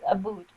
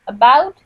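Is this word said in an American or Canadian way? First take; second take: Canadian; American. First: It is said with a Canadian accent. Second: It is said with an American accent.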